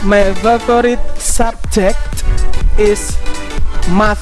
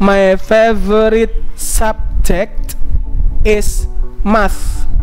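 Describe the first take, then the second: First: It is spoken at a normal speed. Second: It is spoken slowly and carefully.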